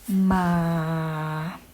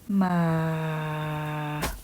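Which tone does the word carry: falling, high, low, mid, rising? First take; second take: low; low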